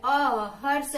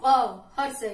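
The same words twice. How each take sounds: First: Short अ said quick and clipped, hrasva; short अ in हर्ष spoken brief; short vowel demo. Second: अ cut short and louder, one mātrā; short अ said brief and crisp; short vowel demo. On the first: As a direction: say अ short, one mātrā long. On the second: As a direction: hit अ quickly as a hrasva vowel. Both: Shown as a demonstration. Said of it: "बहुत कम समय".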